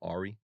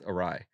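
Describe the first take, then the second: First: It is said like 'AR-ee', ending in an ee sound. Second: It is said like 'uh-RYE', ending in a rye sound. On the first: The speaker calls it wrong. "I would always say like Ari" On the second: The speaker calls it right. "it's awry"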